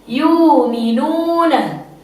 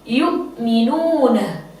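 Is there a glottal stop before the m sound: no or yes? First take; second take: no; yes. First: The glottal stop is replaced by a long u vowel. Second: A glottal stop is pronounced before the m. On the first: This follows the recitation of another transmission. "membaca ibdal waw" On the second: This follows the recitation of one transmission. "Qalun membaca dengan bitahqiq"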